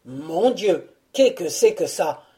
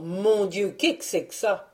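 First: Louder, pained mock roar; hammed-up roaring cry; lion's roar. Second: A touch of alarm, the donkey yelping; startled donkey cries out in mild dismay; mild startled cry; donkey's startled cry. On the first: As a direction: bellow it like a lion in pain. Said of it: "ce fut un rugissement". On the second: Acted. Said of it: "s'écriant".

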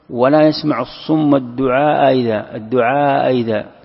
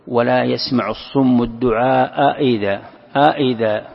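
First: "الدعاء إذا" with the second hamza softened towards a y; eased second hamza. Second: "الدعاء إذا" with two crisp, separate glottal stops; both hamzas fully articulated. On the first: Teacher showing students the eased reading, second hamza of "إذا" between hamza and ya. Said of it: "بين الهمزة والحرف". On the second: Teacher showing students the first reading, both hamzas of "الدعاء إذا" fully sounded. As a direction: slowly sound each hamza in "الدعاء إذا" as a full stop. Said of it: "أن تحقق الهمزتين". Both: Shown as a demonstration.

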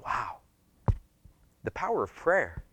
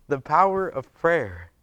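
First: Soft, wondering acted reaction; hushed awe. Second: "The power of prayer" said slowly, word by word; slow down and weigh each word of "The power of prayer"; emphatic repeat. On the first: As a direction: breathe it out in quiet wonder. Acted awe at answered prayer. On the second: Real, not acted.

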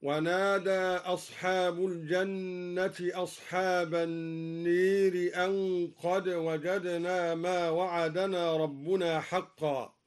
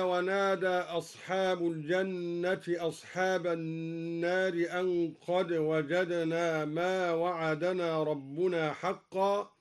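First: Slow recitation, النير with a long e for aa; imala. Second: Measured recitation, النار with a full a vowel; open alif. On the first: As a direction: recite النير as an-neer, alif tilted to e. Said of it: "أمال الدوري ألف النار هكذا". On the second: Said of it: "أمال الدوري ألف النار". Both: Shown as a demonstration.

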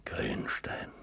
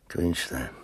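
First: "Grünstein" whispered low and soft, no voice; whispered name. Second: Said in the usual way. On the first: Acted. The old man repeats the name to himself, whispering. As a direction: let "Grünstein" fade into a whisper of memory.

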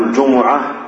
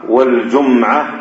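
First: الجمعة as "al-jumu'a", u after both jim and mim; damma on mim. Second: والجمعة as "wal-jum'a", no vowel after the m; silent mim. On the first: Teacher showing students the variants, الجمعة with damma on mim. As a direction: say الجمعة in three syllables, ju-mu-'a. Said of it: "بضم الجيم والميم". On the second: Teacher showing students the variants, والجمعة with sukun on mim. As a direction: close the mim in والجمعة, jum-'a. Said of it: "ويجوز فيه إسكان الميم". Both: Shown as a demonstration.

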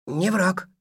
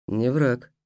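First: High, submissive creature echo; obediently repeating, high and small; meek creature voice. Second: Said in the usual way. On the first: Acted. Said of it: "покорно повторил Мартыш".

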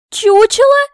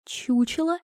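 First: Very high, very loud incredulous cry; piercing indignant question; outraged shriek. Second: Soft, higher disbelieving question; hushed rising disbelief; stunned echo. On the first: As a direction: explode on the repeated insult. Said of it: "Я чуть не задохнулась". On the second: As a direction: repeat it quietly, incredulous. Princess echoes insult in disbelief. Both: A narrator's reading.

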